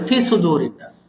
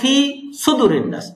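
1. fi-এর স্বরটি ছোট, দীর্ঘ করা হয়নি। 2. sudu-এর স্বরটি ছোট, দীর্ঘ করা হয়নি। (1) "2-1 হলো ফি টানটা দেয় না" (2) "2-1 হলো সুদুর টানটা দেয় না"

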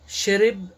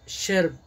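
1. A vogal do meio é claramente pronunciada. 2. A vogal do meio quase não é pronunciada.

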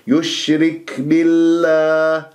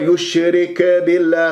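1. الكاف تُنطق مع نفس خفيف لطيف. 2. الكاف تُنطق مع صدى يشبه الارتداد. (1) "بهذه الطريقة، همس لطيف" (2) "قلقلها البعض"

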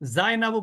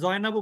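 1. নামটি z ধ্বনি দিয়ে শুরু। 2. নামটি j ধ্বনি দিয়ে শুরু। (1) "জাইনাবু বলবেন" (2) "এখানে জয়নাবু বলবেন না"

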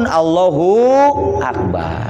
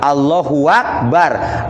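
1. Vokal hu dipanjangkan sebelum akbar. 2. Bunyi w yang berharakat menyambungkan hu dengan akbar. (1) "Atau sukun" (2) "Kalau ada harkat berarti dibacanya apa?"

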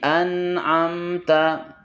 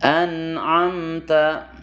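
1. Bunyi n dan m ditahan dengan sedang dan stabil. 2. Bunyi n dan m ditahan dengan sedang dan stabil.

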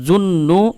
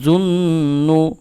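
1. গুন্নাটি ছোট, টেনে পড়া হয় না। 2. গুন্নাটি নাক দিয়ে টেনে পড়া হয়। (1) "এরকম পড়বে না" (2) "গুন্না করে পড়ব"

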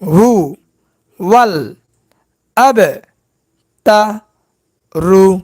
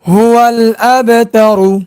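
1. প্রতিটি অক্ষর আলাদাভাবে, বিরতি দিয়ে বলা হয়। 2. অক্ষরগুলো বিরতি ছাড়া একসঙ্গে বলা হয়। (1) "ভাঙ্গা ভাঙ্গা উচ্চারণ" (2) "একসঙ্গে উচ্চারণ"

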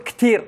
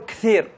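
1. يُستبدل صوت th بين الأسنان بحرف ساكن آخر. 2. يُنطق بصوت th بين الأسنان. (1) "نحن نقول كثير" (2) "ما نقول كثير"

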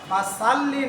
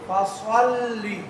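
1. s এর উচ্চারণটি পাতলা ও হালকা। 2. s এর উচ্চারণটি মোটা ও ভারী। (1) "না হয়ে" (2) "সোয়াদ এটা হচ্ছে হরফে মুস্তালিয়া"

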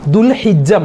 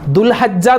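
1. h ന് ശേഷമുള്ള സ്വരം i ആണ്. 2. h ന് ശേഷമുള്ള സ്വരം a ആണ്. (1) "ദുൽഹിജ്ജ മാസം" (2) "ദുൽഹജ്ജ എന്ന് പറയാറുണ്ട്"

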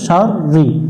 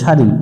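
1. র ধ্বনিটি দ্বিত্ব এবং একটু বেশি সময় ধরে উচ্চারিত। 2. র ধ্বনিটি হ্রস্ব ও একক। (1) "রয়ের উপরে তাসদিদ আছে" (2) "অনেকজনে মিন শাড়ি পরে, শাড়ি পরা যাবে না"

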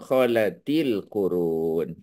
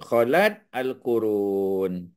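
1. Huruf t disambung dengan tambahan vokal i. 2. Huruf t tidak diikuti vokal. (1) "jadi bunyinya kholatil Qurun" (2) "pasal asalnya dia sukun"

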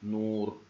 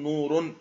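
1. تنتهي الكلمة بدون أي نون زائدة. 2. تنتهي الكلمة بنون زائدة. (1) "بل نقول نور ويختفي التنوين" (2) "لا نقول نور"

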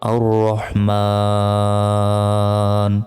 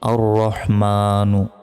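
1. শব্দটি একটি দীর্ঘ স্বরধ্বনির পরে ব্যঞ্জনে শেষ হয়। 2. শব্দটি একটি হ্রস্ব স্বরধ্বনিতে শেষ হয়।

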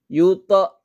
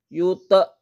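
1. Pantulan pada t terdengar berlebihan dan dipaksakan. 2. Pantulan pada t terdengar berlebihan dan dipaksakan.

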